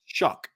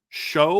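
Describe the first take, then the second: First: The name ends in a k sound. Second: The name ends in an open vowel sound. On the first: The speaker calls it right. "nope, it's Shuck" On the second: The speaker calls it wrong. "when he first came, I was like Tyler Show"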